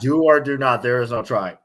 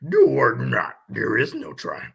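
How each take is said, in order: First: It is said in his normal voice. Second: It is said in a put-on Yoda voice.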